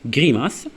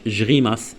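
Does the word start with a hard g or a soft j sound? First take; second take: hard g; soft j. First: The word starts with a hard g sound. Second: The word starts with a soft j sound. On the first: The speaker calls it right. "devant G il y a une consonne" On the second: The speaker calls it wrong. "ما قلناش جريماس"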